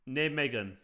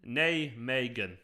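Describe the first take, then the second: First: "Nijmegen" as NAY-meh-gen; trying a pronunciation. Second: "Nijmegen" stretched slowly, NAY-MAY-gen; sounding it out. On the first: Streamer retrying a town name, "Nijmegen" as NAY-meh-gen. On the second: Streamer checking a town name, slow careful "Nijmegen" as NAY-MAY-gen. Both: Shown as a demonstration. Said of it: "Is that right?".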